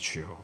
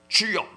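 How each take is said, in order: First: It is said weakly without force. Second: It is shouted loudly with force.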